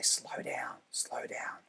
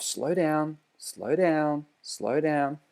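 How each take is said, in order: First: Hushed, almost whispered; soft whispered slow down; low calm instruction. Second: "Slow down" repeated evenly, a bit softer; calm repetition. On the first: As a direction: breathe the words out softly to calm the learner. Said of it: "that lower tone". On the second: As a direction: say "slow down" three times in a steady rhythm. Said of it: "that repetition of". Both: Shown as a demonstration.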